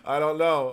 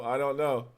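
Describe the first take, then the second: First: Laughing. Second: Said in the usual way. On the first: Real, not acted. Still laughing after chat comment.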